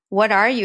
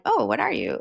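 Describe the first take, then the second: First: Said in the usual way. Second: Imitating an excited, interested question; mild mock excitement. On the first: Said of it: "when we asked the question". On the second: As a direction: ask it with light, friendly excitement, not derogatory. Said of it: "like excitement".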